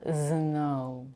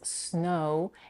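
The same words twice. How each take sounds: First: The first sound is a voiced buzz. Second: The first sound is a voiceless hiss. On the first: The speaker calls it wrong. "make sure not to voice the first phoneme" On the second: The speaker calls it right. "It's a voiceless consonant"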